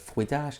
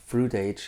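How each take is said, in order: First: It is said with French pronunciation. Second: It is said without French pronunciation. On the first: The speaker calls it wrong. "instead of fruitage" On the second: The speaker calls it right. "the pronunciation of fruit age"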